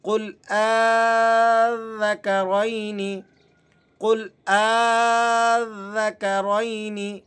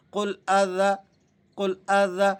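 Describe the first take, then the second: First: قل آذکرین with آ held for several beats, slow and louder; correct long madd. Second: قل آ ذا with آ barely stretched, rushed on; wrong short reading. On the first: Teacher giving the correct recitation, very slow with long madd. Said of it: "ہم نے اسے کس طرح سے پڑھنا ہے". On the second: Teacher showing the common mistake, آ too short. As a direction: clip the آ in قل آ ذا short. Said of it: "اس طرح سے پڑھنے سے غلطی ہو جائے گی". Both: Shown as a demonstration.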